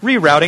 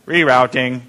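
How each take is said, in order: First: It is said in a soft, gentle voice. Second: It is said in a flat, robotic voice. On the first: "it's kind of in that nice, gentle voice" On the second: "it's kind of in that robot voice"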